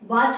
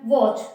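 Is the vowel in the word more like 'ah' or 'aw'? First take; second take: ah; aw. First: The vowel is an open 'ah' sound. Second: The vowel is a rounded 'aw' sound. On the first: The speaker calls it wrong. "ये वॉच नहीं होती" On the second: The speaker calls it right. "ऑ की sound देता है"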